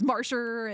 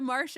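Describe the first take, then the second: First: The name ends with an added r sound. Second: The name ends in a plain vowel, no r. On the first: "her New York accent really come out" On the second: "how she said Marcia"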